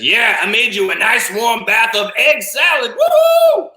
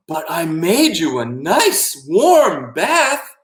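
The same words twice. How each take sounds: First: High excited shout, rising to a whoop; gleeful octopus. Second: Slow, higher, swooping singsong; coaxing octopus. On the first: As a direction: whoop it up like a wild party host. Octopus gleefully reveals egg-salad bath. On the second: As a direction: coax sweetly, drawing out each word. Octopus coaxing the boy to bathe. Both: Acted.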